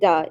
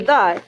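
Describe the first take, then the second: First: It begins with a hard d sound. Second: It begins with a soft th sound. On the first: "sounds like duh in Tagalog" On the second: "the in English"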